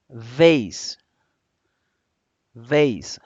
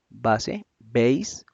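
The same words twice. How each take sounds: First: "vase" buzzed with teeth on lip. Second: "base" and "vase" said with B, lips closed. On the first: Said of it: "y otra cosa es". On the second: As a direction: pop "base" off both lips. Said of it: "una cosa es". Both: Shown as a demonstration. Teacher contrasting base and vase for students.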